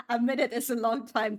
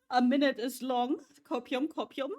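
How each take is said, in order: First: Said in the usual way. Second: Teasing mock echo, pitched up; mocking singsong. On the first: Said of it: "Oh, sure it is". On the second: Real, not acted. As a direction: tease it back in a singsong. Mocking chat's claim.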